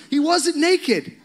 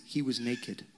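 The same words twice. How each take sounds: First: High, loud, slow exclamation; emphatic correction. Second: Low, soft, offhand claim; hushed repeated gossip. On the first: Real, not acted. Preacher correcting the congregation about David's clothes, emphatic exclamation. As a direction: cry out the correction, half laughing. Preacher refuting the naked myth. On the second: Retold or imitated. Preacher quoting what people say about David dancing, hushed. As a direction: drop it low and quiet. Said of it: "we say these things".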